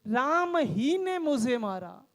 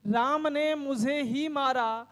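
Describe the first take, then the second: First: Slow read with weight on "राम ही"; stress on राम ही. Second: Slow read with weight on "मुझे ही"; stress on मुझे ही. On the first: Teacher reading the second example aloud to students, stress on "राम ही". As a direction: lean on "राम ही", then let "मुझे मारा" fall level. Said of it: "पढ़ के देखिए". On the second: Teacher reading the example aloud to students, stress on "मुझे ही". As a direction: lean on "मुझे ही", the rest of the sentence level and slow. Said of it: "एक बार पढ़िए". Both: Shown as a demonstration.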